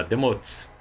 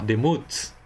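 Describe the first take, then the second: First: Demotes said with an O in the last syllable; mistaken vowel. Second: Demuts said with a U in the last syllable; corrected demuts, ending in -uts; corrected vowel. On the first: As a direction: say demotes with "o", as in "mots". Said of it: "Ou melhor, demuts". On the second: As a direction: say demuts with "u", as in "muts". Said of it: "Temos aqui o shurik, que é o". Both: Real, not acted.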